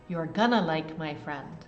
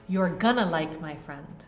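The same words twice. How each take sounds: No difference in how they are said.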